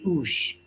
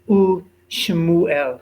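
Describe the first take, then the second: First: The shva is silent, closing the syllable as oosh. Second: The shva is voiced as a short vowel sound. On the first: The speaker calls it wrong. "we would close a syllable and pronounce it oosh" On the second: The speaker calls it right. "we actually vocalize the shva"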